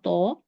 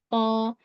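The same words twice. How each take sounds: First: The lips are pushed forward and rounded. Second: The jaw is open without pushing the lips. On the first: The speaker calls it wrong. "nggak mau mau to" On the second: The speaker calls it right. "dibuka rahang tanpa dimajukan bibir"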